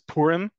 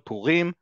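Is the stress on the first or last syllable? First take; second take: first; last. First: The stress is on the first syllable. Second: The stress is on the last syllable. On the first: This is how it is known outside Israel. "maybe some of you know it as Purim" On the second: This is how it is said in Israel. "here in Israel, ... it's on the last syllable by default"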